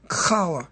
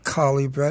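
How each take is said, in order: First: The word begins with a raspy guttural sound. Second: The word begins with a plain, non-guttural sound. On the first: The speaker calls it right. "It's challah" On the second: The speaker calls it wrong. "most Christians say challah bread. It's not challah bread"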